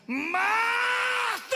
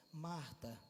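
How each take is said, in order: First: Huge, high, drawn-out bellow; thunderous call, stretched long; raised-voice shout. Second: Soft, low, tranquil address; gentle, lowered voice; calm. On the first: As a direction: cry out Marta at full voice. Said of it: "Aí ele sobe o tom e diz assim". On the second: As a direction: say Marta quietly, without any push. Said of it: "É tranquilo ou não é?". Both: Shown as a demonstration.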